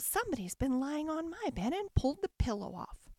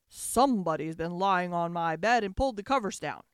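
First: It is said in a middle-pitched voice. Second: It is growled in a big, deep voice.

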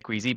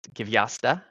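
First: The name is said in a simplified English way. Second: The name is said in the Polish way. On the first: This is the easy form used in conversation. The speaker calls it wrong. "We're going to say" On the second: This is the name's real pronunciation. The speaker calls it right. "but it's"

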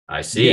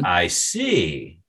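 First: It sounds curt and closed off. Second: It sounds haughty and sneering. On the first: The speaker is ending the conversation. "it's said with little in an like with a frown" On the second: The speaker is angry and will get even. "with a haughty tone and a sneer"

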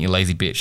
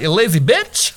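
First: It sounds serious and insulting. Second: It sounds playful and joking.

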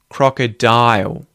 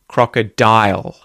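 First: The final L sounds like a rounded ooh. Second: The final L is made with the tongue. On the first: "we can also say it as the dark L, where it's more in the lips going ooh" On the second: "as opposed to"

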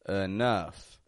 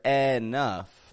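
First: The first syllable is a weak schwa. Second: Both syllables are strong with full vowels. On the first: The speaker calls it right. "I'm making the E in the beginning into a schwa sound" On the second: The speaker calls it wrong. "making two strong syllables"

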